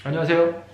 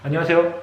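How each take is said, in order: No difference in how they are said.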